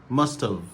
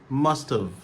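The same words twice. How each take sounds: The two takes are said the same way.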